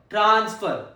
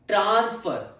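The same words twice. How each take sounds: No difference in how they are said.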